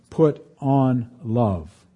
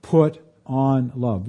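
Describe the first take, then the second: First: Stressing the key phrase of the verse; emphasis on put on love. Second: Driving the verse home; repeated for emphasis. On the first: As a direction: Put drawn out very slowly, each word weighted. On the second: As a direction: Put leaned on again, slow and falling. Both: Shown as a demonstration. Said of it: "if you want to pick out a particular emphasis".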